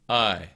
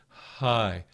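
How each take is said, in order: First: The vowel starts with a sharp throat catch. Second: The vowel starts with a soft breathy h. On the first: "kind of this feeling of chords being completely closed and then an opening" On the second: "as opposed to"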